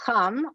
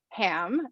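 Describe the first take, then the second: First: The name is said with a Hebrew pronunciation. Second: The name is said with an English pronunciation. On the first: "here we have it in the Hebrew" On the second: "as it's usually pronounced"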